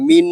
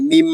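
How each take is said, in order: First: The word ends with an n sound. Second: The word ends with an m sound. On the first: The speaker calls it wrong. "মিন না বলে" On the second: The speaker calls it right. "মিম উচ্চারণ করব"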